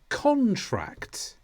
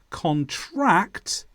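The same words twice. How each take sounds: First: The stress is on the first syllable. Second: The stress is on the second syllable. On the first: It names a written agreement. "In the noun, the stress is on the first syllable" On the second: It means to catch something. "In the verb, the stress is on the second syllable"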